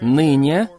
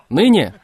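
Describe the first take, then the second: First: The word is said weakly, without force. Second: The word is said loudly, with strong force. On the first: The speaker calls it wrong. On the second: The speaker calls it right.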